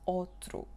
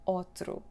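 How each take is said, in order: First: Its unstressed vowel is reduced. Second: The same.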